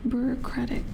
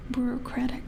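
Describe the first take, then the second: No difference in how they are said.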